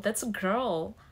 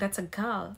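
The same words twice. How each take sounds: First: It is said in a Canadian accent. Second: It is said in a British accent. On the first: "but here, oh" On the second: "Like in British, you'll you'll be saying"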